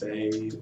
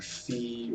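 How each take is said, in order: First: The name is one syllable rhyming with day. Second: The name is one syllable rhyming with see. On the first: "everybody thinks that it's Faye" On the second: "or Fee"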